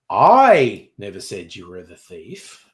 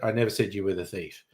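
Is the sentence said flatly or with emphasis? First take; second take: with emphasis; flatly. First: It is said with one word clearly emphasized. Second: It is said flatly, with no stressed word.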